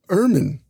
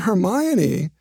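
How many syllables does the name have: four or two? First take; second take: two; four. First: The name is said with two syllables. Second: The name is said with four syllables. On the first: "Those are 10-syllable lines" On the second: "We all say Hermione"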